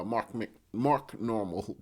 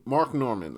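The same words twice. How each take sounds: First: Stumbling over "Mark Normal", said as Normal; host botching "Mark Normal" while reading it out, slow; wrong name. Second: "Mark Norman" with a clear r and n, Nor-man; host correcting the name to "Mark Norman"; corrected name. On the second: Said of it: "Norman, N". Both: Real, not acted.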